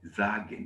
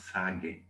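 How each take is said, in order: First: The first sound is a buzzing z. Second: The first sound is a hissing s. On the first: The speaker calls it right. "S is now like Z" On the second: The speaker calls it wrong. "not sagen"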